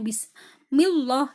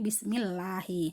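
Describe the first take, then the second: First: The L in Allah sounds thick and heavy. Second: The L in Allah sounds thin and light. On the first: The speaker calls it wrong. "Salah kalau seperti itu" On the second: The speaker calls it right. "Maka tipis"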